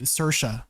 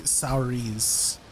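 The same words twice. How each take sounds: First: "Saoirse" said SUR-shuh; actual name pronunciation. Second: "Saoirse" read as written, SOW-reez; spelling pronunciation. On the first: Asking about an Irish name, "Saoirse" as SUR-shuh. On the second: Telling friends how it's spelled, "Saoirse" as SOW-reez. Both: Shown as a demonstration. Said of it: "It's spelled like Saoirse".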